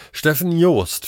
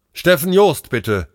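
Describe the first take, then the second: First: Said in the usual way. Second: High, loud call into the microphone; urgent raised-voice summons. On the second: A narrator's reading. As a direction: hail a colleague over the radio. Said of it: "rief er ins Mikro".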